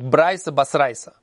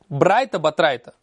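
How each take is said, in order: First: The middle consonants are pronounced as s sounds. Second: The middle consonants are pronounced as t sounds.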